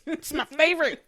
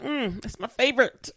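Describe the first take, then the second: First: Gushing. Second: Said in the usual way. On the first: Real, not acted. Gushing about a favorite actor.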